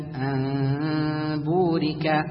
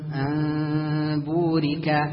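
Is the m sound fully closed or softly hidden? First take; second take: hidden; hidden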